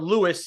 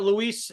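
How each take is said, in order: First: The name is said as LOO-iss. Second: The name is said as loo-EES. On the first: The speaker calls it right. "he pronounces it Lewis" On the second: The speaker calls it wrong. "It's it looks like it's spelt Luis"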